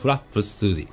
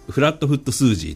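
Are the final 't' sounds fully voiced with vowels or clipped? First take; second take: clipped; fully voiced. First: The 't' sounds are clipped and dropped. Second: The 't' sounds are fully said with vowels.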